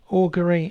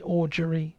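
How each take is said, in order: First: The G is hard, as in 'go'. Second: The G is soft, as in 'gem'. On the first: The speaker calls it right. "a hard G" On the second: The speaker calls it wrong. "a soft G"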